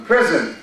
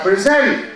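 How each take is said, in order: First: "Present" stressed on PRE; teacher demo of the noun. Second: "present" stressed on -SENT as preZENT; teacher demo of the verb. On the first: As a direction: say "Present" as PREsent, first syllable stressed. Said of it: "A word like present". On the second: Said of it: "we have present". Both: Shown as a demonstration.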